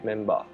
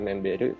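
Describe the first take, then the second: First: The word ends with a plain 'ba' sound. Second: The word ends with an English 'ber' sound. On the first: The speaker calls it right. "tapi memba" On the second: The speaker calls it wrong. "bukan member"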